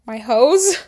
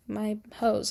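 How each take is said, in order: First: "My hoes?" echoed with a rising, questioning tune; incredulous repeat. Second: Said in the usual way. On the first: Real, not acted. Doubting the word she used for her friends, incredulous.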